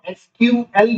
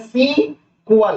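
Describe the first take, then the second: First: It is spoken as three separate letters. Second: It is spoken as one two-syllable word. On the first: "इसको एसक्यूएल भी pronounce कर सकते हैं" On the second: "या सीक्वल"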